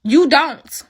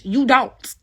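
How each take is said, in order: First: Repeated higher and louder, final word; defiant closing repeat; louder retort. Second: Said in the usual way. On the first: Real, not acted. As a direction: punch it back harder. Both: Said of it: "repeated retort".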